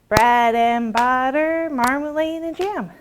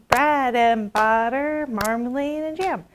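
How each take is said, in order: Both takes have the same delivery.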